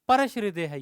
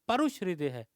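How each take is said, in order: First: The word is said with a plain 'a', as 'parash'. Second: The word is said with a 'u' sound, as 'parush'. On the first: The speaker calls it wrong. "परश नहीं" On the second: The speaker calls it right. "रू है ना"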